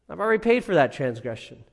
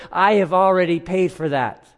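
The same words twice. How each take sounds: First: Quick restatement. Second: Raised and louder, pressing each word; I stressed, firm and raised; firm assurance. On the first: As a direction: rush the reassurance through. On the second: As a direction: insist it is already paid. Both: Retold or imitated. Christ pleading before the Father.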